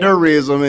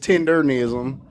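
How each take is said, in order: First: There is no n sound before -ism. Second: An n sound comes before -ism. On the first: The speaker calls it wrong. "He's saying tenderism" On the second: The speaker calls it right. "it's tendernism"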